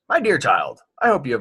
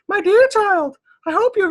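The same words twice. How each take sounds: First: It is read in the speaker's ordinary voice. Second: It is read in a put-on motherly voice.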